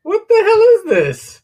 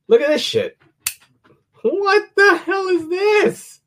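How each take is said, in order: First: Very high, loud, slow exclaim; amazed. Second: High, slow amazed exclaim. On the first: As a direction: shriek of disbelief. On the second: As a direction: marvel at the weird thing. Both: Real, not acted. Showing off weird knife.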